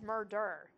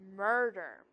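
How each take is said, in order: First: The stress is on the second syllable. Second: The stress is on the first syllable. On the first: The speaker calls it wrong. "I don't think anyone says murder" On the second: The speaker calls it right. "your stress is in the first syllable"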